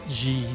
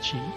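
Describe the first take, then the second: First: The word starts with a 'j' sound. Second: The word starts with a 'ch' sound. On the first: The speaker calls it right. "because it's Ji" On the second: The speaker calls it wrong. "not Chi"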